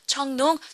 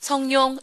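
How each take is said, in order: First: The name follows the original Chinese sounds. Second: The name uses Korean Sino-Korean sounds. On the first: It respects how the person's own country says it. The speaker calls it right. "그 나라 발음을 최대한 존중해 주는 겁니다" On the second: It ignores how the person's own country says it. The speaker calls it wrong. "우리 식대로 발음을 해버리는 거예요"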